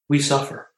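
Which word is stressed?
suffer. The stress falls on the word suffer. Suffering is the shared human condition.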